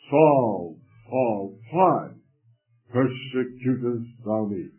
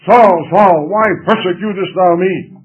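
First: It is said softly and lovingly. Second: It is said in an angry tone.

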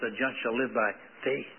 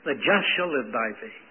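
First: The stress is on the word faith. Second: The stress is on the word just.

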